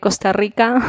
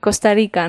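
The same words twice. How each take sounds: First: The R in Rica is a strong trill. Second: The R in Rica is softer, not trilled. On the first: This is how Spaniards say it. "que es lo que decimos nosotros" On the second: This is how Costa Ricans say it. "No existe, digamos, la R fuerte"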